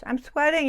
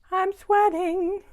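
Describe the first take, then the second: First: Said in the usual way. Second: High, drawn-out mock complaint; slow singsong, pitched way up; playful singsong whine. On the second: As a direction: stretch it out high and loud, playfully. Playful repeat of complaint about heat.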